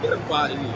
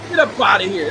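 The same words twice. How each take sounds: First: Said in the usual way. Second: Loud, dismissive shove-off; mock dismissal. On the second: Voicing China telling Trump loudly to leave. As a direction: bark them off like the Chinese did. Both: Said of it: "That's what they like".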